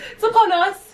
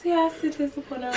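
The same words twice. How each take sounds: First: High, loud grand proclamation; dramatic announcement. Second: Said in the usual way. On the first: Acted. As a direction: announce it like big news. Dramatic Valentine's Day announcement.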